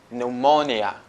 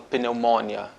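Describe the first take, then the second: First: The initial P sound is silent. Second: The initial P sound is pronounced. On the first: The speaker calls it right. "Eu digo pneumonia" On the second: The speaker calls it wrong. "Eu não falo pneumonia"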